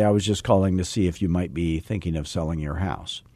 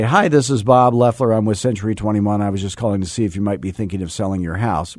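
First: Put-on old slow pitch. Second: Rushed cold call. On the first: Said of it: "And I used to say". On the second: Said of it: "rushing it because you're using the Mojo technology". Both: Shown as a demonstration.

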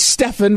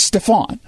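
First: "Stefan" with a short, unstressed second vowel. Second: "Stefan" with a full, open "ahn" ending. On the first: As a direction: say "Stefan" as STEF-un, the end reduced. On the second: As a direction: say "Stefan" as stef-AHN, drawing out the last vowel. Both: Shown as a demonstration.

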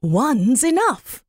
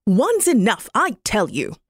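First: Slow, a little higher magpie voice; a patient magpie answering calmly. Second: A touch of an irritated magpie; a mildly fed-up magpie snapping back; mild angry magpie. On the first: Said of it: "So she said". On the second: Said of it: "the magpie got angry and said". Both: Acted.

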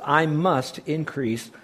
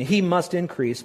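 First: Said in the usual way. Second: He stressed, slow and deliberate; corrected stress on He. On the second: Real, not acted. Correcting his misquote, slow stress on He. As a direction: lean on He, slowly. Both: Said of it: "Excuse me".

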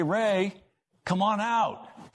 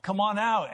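First: High, slow call across the water. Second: High repeated call, a little quicker; calling out again. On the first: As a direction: call him up from the cave, drawn out. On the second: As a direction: call once more from the boat. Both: Retold or imitated. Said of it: "calling, 'Hey".

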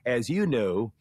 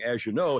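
First: "As you know" with a clean z, then a separate "you"; careful enunciation. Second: "As you know" with "As you" blurred into "azh-you"; run together. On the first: Retold or imitated. Guest imitating a coached Southern governor's phrase, over-enunciated. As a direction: pull "As you know" apart word by word, stressing "you". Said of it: "he would say". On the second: Shown as a demonstration. Guest showing how most people would say it, run together. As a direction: say "As you know" loosely, s and y merged. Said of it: "say like most people would say".

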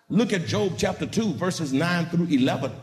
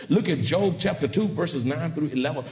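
Both takes have the same delivery.

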